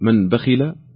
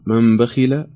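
First: The n sound is pronounced clearly before b. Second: The n sound is hidden and weakened before b. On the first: "هل نظهرها فنقول" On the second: "أو نخفيها فنقول"

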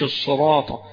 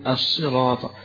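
First: The first consonant is strongly emphatic and heavy. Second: The first consonant is light, close to s. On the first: The speaker calls it wrong. "مش الصراطة" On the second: The speaker calls it right. "فهي مرققة قريبة من السين"

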